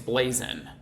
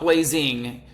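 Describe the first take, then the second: First: The word ends with a plain 'n' sound. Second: The word ends with a full 'ng' sound. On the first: "It's N apostrophe. It's Blazing" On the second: "It's not blazing"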